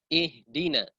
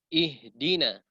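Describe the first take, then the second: The two takes are said the same way.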